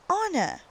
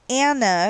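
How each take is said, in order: First: The first vowel sounds like in 'father'. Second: The first vowel sounds like in 'cat'. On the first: The speaker calls it right. "but it's pronounced Anna" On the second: The speaker calls it wrong. "Everybody keeps trying to say Anna because that's the way it's spelt"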